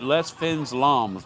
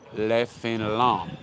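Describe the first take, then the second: First: The final S sounds are pronounced. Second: The final S sounds are silent. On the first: The speaker calls it wrong. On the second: The speaker calls it right.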